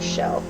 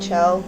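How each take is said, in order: First: The name begins with a sh sound. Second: The name begins with a ch sound. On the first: This is how other people say the name. "other people might pronounce it like Shell" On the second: This is how the speaker says the name. "I always pronounce it like uh"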